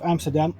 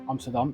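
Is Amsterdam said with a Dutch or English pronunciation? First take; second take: English; Dutch. First: The city name is said with an English pronunciation. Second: The city name is said with a Dutch pronunciation. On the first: The speaker calls it wrong. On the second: The speaker calls it right.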